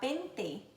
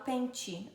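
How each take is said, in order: First: The t is a plain t sound. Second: The t sounds like ch.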